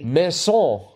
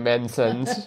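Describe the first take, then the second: First: The word is said with a French accent. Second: The word is said with a plain English accent.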